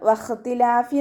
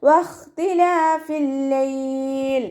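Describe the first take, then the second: First: വഖ്തിലാഫി read without the doubled l, clipped at the end; വഖ്തിലാഫി spoken plainly as the error; wrong recitation. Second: വഖ്തിലാഫിൽ ലൈൽ chanted slow and high with doubled l; slow, higher sung വഖ്തിലാഫിൽ ലൈൽ; correct recitation. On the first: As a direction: say വഖ്തിലാഫി as the mistake, dropping the join into ലൈൽ. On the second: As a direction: join വഖ്തിലാഫിൽ into ലൈൽ with a held l. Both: Shown as a demonstration. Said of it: "എന്ന് ഓതരുത്".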